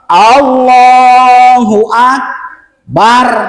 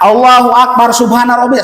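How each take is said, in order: First: There is a pause after Allahu Akbar. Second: It runs on with no pause.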